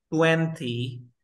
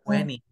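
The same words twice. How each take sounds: First: TWENTY with a full hard T; T pronunciada. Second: TWENTY with no second T, like "tweny"; T muda. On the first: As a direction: sound out both N and T in TWENTY. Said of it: "en lugar de decir". (TWENTY con la T marcada) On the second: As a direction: drop the T after N in TWENTY. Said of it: "la T no se pronuncia". (TWENTY sin la T tras la N) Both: Shown as a demonstration.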